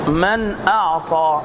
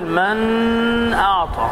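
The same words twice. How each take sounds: First: The noon is pronounced clearly without nasalization. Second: The noon is pronounced with nasalization held on. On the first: The speaker calls it right. "ومن كلمتين أقول من أعطى" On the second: The speaker calls it wrong. "خطأ أن أقول من أعطى، هذا لحن"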